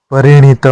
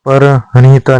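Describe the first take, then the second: First: परिणीता said as "pari-neeta", with no h; the correct form परिणीता, "pari-neeta"; correct pronunciation. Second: परहणिता said as "par-hanita", with an extra h sound; the incorrect form परहणिता, "par-hanita"; wrong pronunciation. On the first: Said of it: "परिणीता होता है". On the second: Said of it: "परहणिता नहीं होता". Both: Shown as a demonstration.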